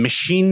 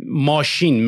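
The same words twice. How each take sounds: First: "مشین" said like English "machine", short "e", stress at the end; English-style pronunciation. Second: "ماشین" said the Persian way, long "aa" as in "maashin"; Persian pronunciation of car. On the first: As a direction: say "مشین" the English way, "meh-SHEEN". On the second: (تلفظ فارسی "ماشین") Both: Shown as a demonstration. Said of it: "مشین نمیگی".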